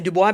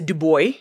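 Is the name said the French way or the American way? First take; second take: French; American. First: The name is said the French way. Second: The name is said the American way.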